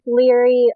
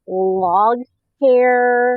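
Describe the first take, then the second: First: The name sounds like 'leery', with no 'g'. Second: The name sounds like 'log hair', with a 'g'. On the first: The speaker calls it right. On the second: The speaker calls it wrong.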